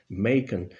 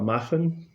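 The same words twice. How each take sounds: First: The name is pronounced in an English way. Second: The name is pronounced in a German way. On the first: The speaker calls it right. "en inglés se pronuncia Machen" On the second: The speaker calls it wrong. "al estilo alemán"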